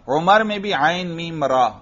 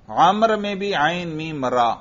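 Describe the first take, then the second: First: عمر opens on u, "Umar"; عمر with short u on the ain; Umar pronunciation. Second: عمر opens on a, "Amar"; عمر with open a on the ain; Amr pronunciation. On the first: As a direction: say عمر as U-mar. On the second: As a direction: say عمر as A-mar. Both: Shown as a demonstration. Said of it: "عمر اور عمر میں فرق".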